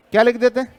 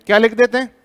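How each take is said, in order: Both takes have the same delivery.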